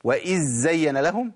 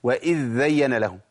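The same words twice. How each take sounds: First: وإذ زين with the dhal swallowed into a doubled z; إدغام خاطئ بالزاي; wrong merged z. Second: وإذ زين with a doubled dhal, no z; إدغام خاطئ بالذال; wrong merged dh. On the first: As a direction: show the error: zzayyana. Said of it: "في ناس بتجيبها إما زين". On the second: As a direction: show the error: idhdhayyana. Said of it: "وفي ناس بتجيبها ذالين". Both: Shown as a demonstration.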